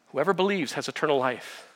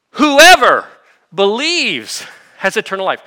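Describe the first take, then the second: First: Said in the usual way. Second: "whoever" punched much higher and louder, then falling; emphatic quote. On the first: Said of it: "Whoever, who's that?". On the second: Shown as a demonstration. Preacher quoting Jesus to the congregation, "whoever" loud and high. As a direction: hit "whoever" hard and high and let the rest fall. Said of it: "That's super emphasis".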